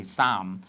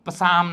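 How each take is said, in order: First: સામ with a silent p, just "saam"; correct pronunciation. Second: પસામ with the p sounded out at the start; wrong pronunciation. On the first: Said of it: "પસામ નથી". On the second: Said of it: "પસામ ના બોલતા". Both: Shown as a demonstration.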